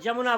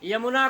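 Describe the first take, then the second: First: The word begins with a j sound. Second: The word begins with a y sound. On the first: "यमुना को जमुना बोलते हैं" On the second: "य को ज बोला जाता है"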